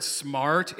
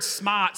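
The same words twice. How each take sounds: First: Said in the usual way. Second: "smart" said with no R, as "smaht"; East Coast pronunciation. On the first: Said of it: "feels weird saying it that way". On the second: Shown as a demonstration. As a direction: drop the R in "smart" with a long open vowel. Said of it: "that word".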